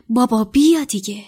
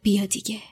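First: Said in the usual way. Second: Whispered, barely voiced; muttered under breath. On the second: Harry urging his father to appear, in a whisper. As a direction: breathe the plea to yourself. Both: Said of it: "زیر لب گفت".

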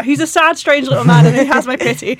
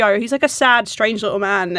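First: Louder, higher mock-grand pity; mock lofty Toy Story pity; quoting Toy Story. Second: Said in the usual way. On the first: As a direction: recite it like the movie line, a touch hammed. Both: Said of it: "I'm quoting Toy Story now".

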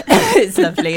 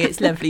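First: Laughing. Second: Said in the usual way. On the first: Real, not acted.

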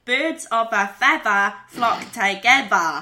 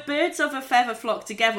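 First: Drawn-out Boston, final R dropped; Boston accent. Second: Said in the usual way. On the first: Shown as a demonstration. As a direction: demonstrate Boston speech slowly, open endings. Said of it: "would be". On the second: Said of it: "drop the final R".

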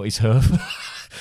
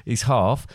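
First: HEARTH said like "hurf"; hearth rhymed with turf; mispronounced hearth. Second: HEARTH said like "harf"; hearth rhymed with scarf; corrected hearth. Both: Shown as a demonstration. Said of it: "Half, not his hearth".

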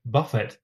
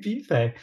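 First: Buffet said BUFF-it, stress on the first part like buff your car; buffet rhymed with buff your car, first part hit. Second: Buffet said the French way as boo-FAY, stress on the end, raised and charmed. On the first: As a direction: say buffet as BUFF-it with a short u and a final t. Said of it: "like you buff your car". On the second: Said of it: "Oh, that's so cute". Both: Retold or imitated.

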